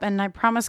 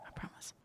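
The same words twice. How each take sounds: First: Said in the usual way. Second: Much softer repeated promise; quiet aside. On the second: Real, not acted. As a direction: drop to an almost silent aside.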